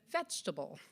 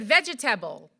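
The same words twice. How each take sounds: First: It is said in an American accent. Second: It is said in a Jamaican accent.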